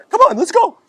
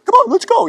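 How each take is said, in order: First: Loud falsetto imitation, pitched way up; exaggerated high, loud voice; high-voiced friend. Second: Very high, loud mock falsetto; mimicked high-pitched urging; high-voiced friend. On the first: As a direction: mimic your pal urging you on, very high. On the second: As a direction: imitate an eager friend in a squeaky-high, loud voice. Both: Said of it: "He had this high voice".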